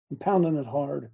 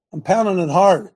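First: Said in the usual way. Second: Hard hit loud at the end; emphatic louder repeat; punched louder. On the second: Shown as a demonstration. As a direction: drive the word hard home, louder.

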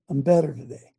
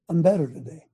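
Both takes have the same delivery.

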